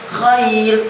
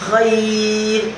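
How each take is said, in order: First: The vowel is held for one count. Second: The vowel is held for two counts. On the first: "Khair itu satu" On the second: "khair berarti dua a alif"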